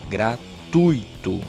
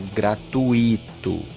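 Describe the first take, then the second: First: The u and i form one syllable together. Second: The u and i are split into two syllables. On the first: The speaker calls it right. "ele não é um hiato ... ele é um ditongo" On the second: The speaker calls it wrong. "Se você fala gratuito, ... você vai colocar um hífen entre o U e o I"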